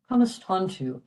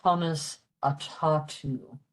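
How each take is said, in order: First: "Conistontu" with an N before the tu; "Conistontu" the Munster way, N in the middle; Munster pronunciation. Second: "Conis Atatu" as written, without the N; "Conis Atatu" in full, open a-ta and no N; written-form pronunciation. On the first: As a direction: run "Conistontu" together, sounding the N. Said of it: "very Munster with the N there". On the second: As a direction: separate out "Conis Atatu" word by word. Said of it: "in the written Irish, it's really". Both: Shown as a demonstration.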